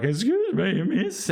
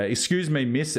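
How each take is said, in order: First: Breaks up into a high squeak; voice cracking high. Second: Normal schoolboy voice. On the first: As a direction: let the voice crack upward on miss. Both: Retold or imitated. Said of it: "my voice started to break".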